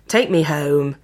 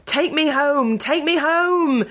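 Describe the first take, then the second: First: Snarled. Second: High, urgent shout. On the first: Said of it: "he snarled at the sickly ghost puppy". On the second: Man in nightmare shouting at ghost puppy, panicked yell. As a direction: cry it out in panic, much higher. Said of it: "he shouted". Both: A narrator's reading.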